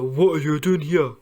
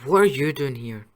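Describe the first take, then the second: First: It is said in a deliberately lower voice. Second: It is said in Ron's normal voice.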